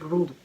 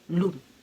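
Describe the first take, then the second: First: The word begins with an R sound. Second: The word begins with an L sound. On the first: "Instead of saying room" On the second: "you say loom"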